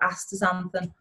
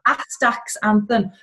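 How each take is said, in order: First: The 'x' sound is left out. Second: The 'x' sound is clearly pronounced.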